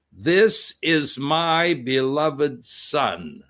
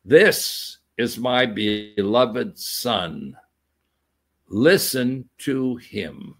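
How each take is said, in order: First: Very slow, solemn words from above; voice from heaven. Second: Lower, very slow and grave; voice from heaven. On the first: Preacher voicing God speaking from the cloud, slow and solemn. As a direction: let God's voice weigh each word. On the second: Preacher repeating God's words from heaven, deep and slow. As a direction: intone it like a divine decree. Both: Acted.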